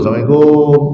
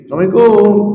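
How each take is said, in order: First: It is said at a lower pitch. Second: It is said at the highest pitch.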